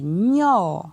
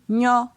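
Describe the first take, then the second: First: The syllable is said on a rising tone. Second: The syllable is said on a high tone. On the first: "Ton montant" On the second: "Ton haut"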